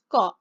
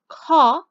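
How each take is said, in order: First: The k is released without a puff of air. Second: The k is released with a puff of air. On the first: "It's just ka. No air" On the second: "it uses air, so it is aspirated"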